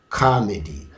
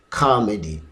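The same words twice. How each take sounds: Both takes have the same delivery.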